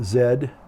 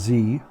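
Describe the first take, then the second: First: The letter is said the British way. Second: The letter is said the American way. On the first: "I'm a little bit of an Anglophile, so sometimes I say things like ... Z" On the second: "instead of Z"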